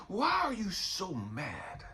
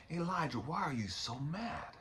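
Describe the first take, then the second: First: Slow, falling repeat of the question; a patient God pressing the point; slowed, settled God on mad. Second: Hushed, gentle question with a rise; a soft inner voice asking why; quietly voiced God rising on mad. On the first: Retold or imitated. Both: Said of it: "I hear God answering me".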